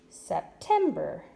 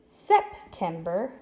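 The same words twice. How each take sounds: First: The stress is on the middle syllable. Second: The stress is on the first syllable. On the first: The speaker calls it right. "move the accent to the middle syllable" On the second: The speaker calls it wrong. "let's try our accent on the first syllable"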